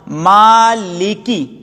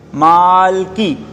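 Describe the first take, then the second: First: The l is followed by a short i vowel. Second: The l is followed directly by the k. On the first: The speaker calls it right. "लाम पर जेर है" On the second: The speaker calls it wrong. "एक पढ़ने वाला पढ़ता है"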